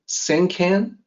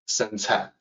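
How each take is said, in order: First: The second syllable begins with a hard k sound. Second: The second syllable begins without a k sound. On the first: The speaker calls it wrong. "you might say Sankan. No, no" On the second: The speaker calls it right. "it's not can. Uh, it's pronounced Ca"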